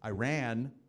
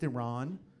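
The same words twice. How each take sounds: First: Iran is said with an Americanized pronunciation. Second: Iran is said with a native pronunciation. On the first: The speaker calls it wrong. "not pronounced that way" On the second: The speaker calls it right. "It's pronounced Iran"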